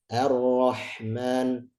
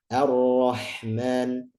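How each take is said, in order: The two takes are said the same way.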